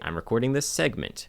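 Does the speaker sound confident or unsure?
confident. It is said in a firm, confident way.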